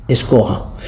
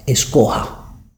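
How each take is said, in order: First: Said in the usual way. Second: Breathy near-whisper, much softer; hushed urging. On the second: Acted. God urging the listener to choose, in a hushed whisper. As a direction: lean in and whisper the choice.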